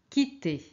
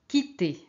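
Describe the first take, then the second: The two takes are said the same way.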